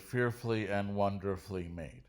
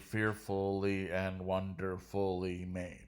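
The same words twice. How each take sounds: First: The middle 'ful' syllable is dropped. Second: The middle 'ful' syllable is fully pronounced. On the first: The speaker calls it right. "We would say ... I just got rid of the ul there" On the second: The speaker calls it wrong. "I don't say"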